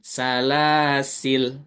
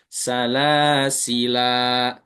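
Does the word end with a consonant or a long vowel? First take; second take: consonant; long vowel. First: The word ends on the l consonant. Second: The word ends with a long a vowel. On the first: "kedua lamnya sukun" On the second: "Kalau berhenti di situ baru panjang"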